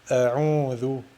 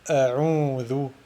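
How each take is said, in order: The two takes are said the same way.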